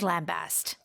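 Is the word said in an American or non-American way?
non-American. It is said the non-American way.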